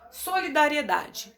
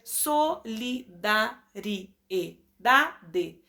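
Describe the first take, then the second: First: Said in the usual way. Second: Solidariedade stretched slowly as so-li-da-ri-e-da-de; very slow syllable by syllable. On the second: Shown as a demonstration. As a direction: count every beat of solidariedade slowly. (solidariedade bem devagar, sílaba por sílaba) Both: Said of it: "Temos mais de quatro".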